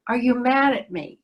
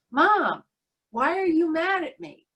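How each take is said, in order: First: Put-on mildly anxious child's question. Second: Put-on higher-pitched, insistent child's plea; urgent child. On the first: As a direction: ask it like a slightly worried little boy. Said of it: "in this rather anxious voice". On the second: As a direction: lightly imitate a small boy pressing his mom for an answer. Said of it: "with much more urgency".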